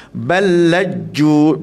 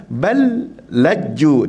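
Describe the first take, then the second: First: Very slow balaju held in one breath; correct, one breath. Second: Very slow balaju broken by a stop; wrong reading, breath break. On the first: Teacher models one-breath recitation for students. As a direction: draw balaju out in a single breath. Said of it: "kita nafaskan satu nafas". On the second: Teacher imitates a student stopping mid-word. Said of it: "Dia terberhenti". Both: Shown as a demonstration.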